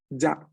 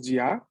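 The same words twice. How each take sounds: First: "ya" with a short I gliding straight into A; right ya. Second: "ya" with a full I before the A; wrong ya. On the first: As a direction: clip the I in "ya" to a quick glide. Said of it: "el sonido igual corto de la I". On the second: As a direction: sound a clear I inside "ya". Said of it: "no decimos ya". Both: Shown as a demonstration.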